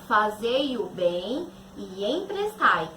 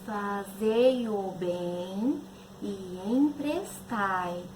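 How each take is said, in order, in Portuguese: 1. É dita em volume normal de fala. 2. É dita muito baixinho e suavemente. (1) "Diz assim" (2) "Falar baixinho"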